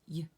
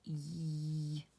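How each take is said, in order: First: The sound is cut off very quickly. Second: The sound is stretched out and held. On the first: "we stop it really quick" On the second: "when it's a stretchy, it does sound like this"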